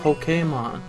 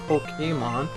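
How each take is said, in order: First: The middle E is said as an accented E. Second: The middle E is said as a plain E. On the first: The speaker calls it right. "there's an accent over it" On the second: The speaker calls it wrong. "That's why it's not Pokemon"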